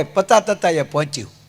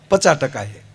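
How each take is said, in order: First: "પતા તતાએ" lisped, ચ and ક turned to ત; comic baby-like t sounds in "પતા તતાએ"; lisping groom. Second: Said in the usual way. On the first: Retold or imitated. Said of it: "તો ભૂરો શું કે".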